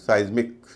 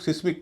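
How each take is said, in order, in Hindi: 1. पहला स्वर 'eye' जैसा सुनाई देता है। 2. पहला स्वर छोटा 'i' है। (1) "इसका उच्चारण साइज्मिक" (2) "इसको कई लोग सिस्मिक कह देते हैं"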